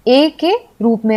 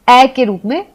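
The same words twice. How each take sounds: First: ए as "ay", like way; ए with the vowel of "way"; long A sound. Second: ए opened to "ae", like man; ए pronounced ऐ, an open "ae"; short A sound. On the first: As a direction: say ए as a close "ay" vowel. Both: Shown as a demonstration. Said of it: "ए का उच्चारण".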